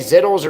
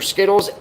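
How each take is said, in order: First: The name begins with a buzzing Z sound. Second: The name begins with a hissing S sound. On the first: "I've always said it like Zittles" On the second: "Why would the Z be silent?"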